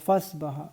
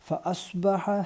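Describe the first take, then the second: First: The ayn is dropped, blending into one syllable. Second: The ayn is clearly pronounced between the syllables. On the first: The speaker calls it wrong. "ഫസ്ബഹ ഫസ് ഫസ് എന്ന് തന്നെ ഈ ഒരു ആയിൻ്റെ ഉച്ചാരണം വിട്ടുപോകും" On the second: The speaker calls it right. "അത് വിട്ടുപോകാതെ പ്രത്യേകം ശ്രദ്ധിക്കുക"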